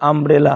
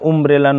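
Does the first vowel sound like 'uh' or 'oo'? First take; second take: uh; oo. First: The first vowel is an open 'uh' sound. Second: The first vowel is a rounded 'oo' sound. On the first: The speaker calls it right. "আমব্রেলা হবে" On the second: The speaker calls it wrong. "উমব্রেলা নয় কিন্তু"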